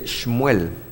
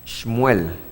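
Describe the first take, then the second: The two takes are said the same way.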